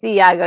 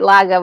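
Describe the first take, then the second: First: The name starts with a vowel sound. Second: The name starts with an L sound. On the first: The speaker calls it right. "but it's Iago" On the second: The speaker calls it wrong. "I said it wrong"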